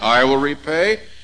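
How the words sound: The stress falls on the word I. Vengeance is God's task, not yours. "we usually put the emphasis on the I there"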